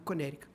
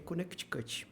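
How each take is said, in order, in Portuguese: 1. O nome é dito com sons do inglês americano. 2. O nome é dito com sons do português. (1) "no inglês é americanizado Connecticut" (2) "no português é Connecticut"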